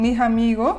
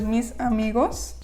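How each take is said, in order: First: The final s is dropped. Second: The final s is clearly pronounced.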